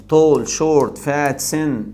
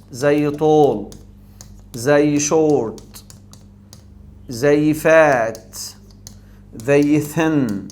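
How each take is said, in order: First: Said in the usual way. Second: Each word drawn out slowly in one breath; slow one-syllable demo. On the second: Shown as a demonstration. (نطق بطيء لكل كلمة في نفس واحد) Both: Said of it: "اي تنطق على نفس واحد".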